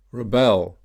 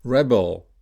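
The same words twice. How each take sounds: First: ReBEL, stressed on the second syllable. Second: REBel, stressed on the first syllable. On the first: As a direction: say rebel as a verb, re-BEL. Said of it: "stressed on the second syllable". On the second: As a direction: say Rebel as a noun, REB-el. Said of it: "stressed on the first syllable". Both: Shown as a demonstration.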